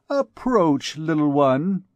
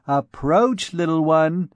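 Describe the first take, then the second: First: Higher, gracious command to a dancer; lady's summons. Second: A small girl's mock-grand copy of the summons; a child aping the lady's stately call; comical dignity. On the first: Acted. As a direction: call her over like a noble dame. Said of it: "repeated with comical dignity little Bérengère". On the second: Little Bérengère mimicking her elder, comically dignified. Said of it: "repeated with comical dignity".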